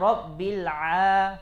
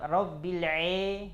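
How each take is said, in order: First: The vowel after ain is a clear open a. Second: The vowel after ain is tilted toward e. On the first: The speaker calls it right. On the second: The speaker calls it wrong. "ada yang baca ... jadi imalah"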